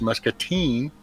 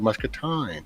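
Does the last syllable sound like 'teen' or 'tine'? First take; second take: teen; tine. First: The last syllable sounds like 'teen'. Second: The last syllable sounds like 'tine'. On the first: This is how locals say it. "pronounced muscatine" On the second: This is how the spelling reads. "it's spelled muscatine"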